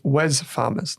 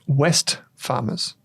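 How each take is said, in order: First: The first word ends without a t sound. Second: The first word ends with a t sound. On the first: The speaker calls it right. "It's Wes Farmers. W E S" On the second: The speaker calls it wrong. "They think it's West Farmers, but it's not"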